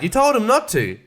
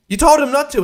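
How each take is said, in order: First: Said in the usual way. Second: "You told him not to," higher and louder, punching "told"; stressed repeat. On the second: Retold or imitated. Reviewer repeats it louder, stressing told. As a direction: hammer "told" the second time. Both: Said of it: "And I'm like".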